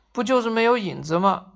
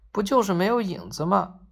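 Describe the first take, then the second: First: Slightly raised, fed-up rhetorical question; exasperated protest. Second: Mildly muttered rhetorical question; understated grumble, dismissing the fuss; grumbling. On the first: Shadowless man can't bear being shunned, mildly exasperated protest. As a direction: protest it, patience run out. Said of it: "再也忍不下去了". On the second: Shadowless man complains about people avoiding him, mild grumbling. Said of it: "他嘟囔着说". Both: A narrator's reading.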